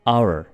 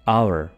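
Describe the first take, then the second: The two takes are said the same way.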